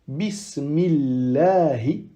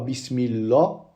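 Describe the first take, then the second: First: The word ends with a final i vowel. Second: The word ends without a final vowel. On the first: The speaker calls it right. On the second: The speaker calls it wrong.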